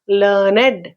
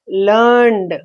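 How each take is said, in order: First: The word is said as two syllables. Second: The word is said as one syllable. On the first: "Two syllables, two syllables are to be pronounced" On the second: "only one vowel sound. It is a monosyllabic word"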